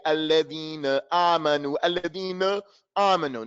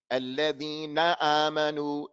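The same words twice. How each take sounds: First: "Alladhina amanu" with "na" reduced to "nuh"; mistaken weak ending. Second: "Alladhina amanu" chanted evenly with a full "na"; clear noon. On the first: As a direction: swallow the last vowel of "Alladhina". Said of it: "Don't say". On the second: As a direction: lower recitation, "na" as clear as a word's start. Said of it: "make it like it's the beginning". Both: Shown as a demonstration.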